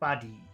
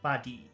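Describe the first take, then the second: First: The first vowel is short, the second long. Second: The same.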